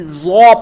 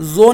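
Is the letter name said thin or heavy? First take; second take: heavy; thin. First: The letter is said heavy, with a full sound. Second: The letter is said thin, without heaviness. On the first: The speaker calls it right. "बल्कि ज़ौ पढ़ेंगे" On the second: The speaker calls it wrong. "जो नहीं पढ़ेंगे"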